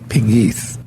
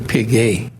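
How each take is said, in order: First: The name is said with an Americanized pronunciation. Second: The name is said with its French pronunciation. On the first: This is how the family says the name. "We call it Pegues" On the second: This is the original pronunciation of the name. "It's really Pigay"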